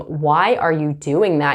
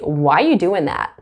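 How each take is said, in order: First: The word 'are' is clearly pronounced. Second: The word 'are' is dropped entirely. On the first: "instead of saying" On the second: "You can say"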